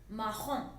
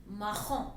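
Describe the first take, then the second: The two takes are said the same way.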